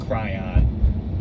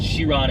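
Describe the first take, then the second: First: The name is said as 'Cryon'. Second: The name is said the French way. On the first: The speaker calls it wrong. "it's not Cran, Cryon" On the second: The speaker calls it right. "but it's Chiron, it's French"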